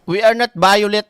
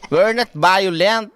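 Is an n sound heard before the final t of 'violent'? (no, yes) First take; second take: no; yes. First: The last word ends without an n sound. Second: The last word has an n sound before t. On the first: The speaker calls it wrong. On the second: The speaker calls it right.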